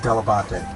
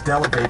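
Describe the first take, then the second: First: The surname has its original, non-American pronunciation. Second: The surname has an Americanized pronunciation. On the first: This is how the grandparents said it. "The proper way to pronounce it is" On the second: This is how people in America would say it. "my dad sort of Americanized it as"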